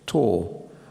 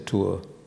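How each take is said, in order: First: The vowel is one steady sound. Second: The vowel glides from one sound into another. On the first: This is the newer way of saying it. "replaced by a single vowel, a monophthong" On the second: This is the older way of saying it. "I still say"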